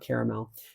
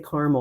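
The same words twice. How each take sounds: First: It is said with a non-Midwestern pronunciation. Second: It is said with a Midwestern pronunciation. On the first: "not caramel" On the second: "I'm a Midwesterner and I say caramels"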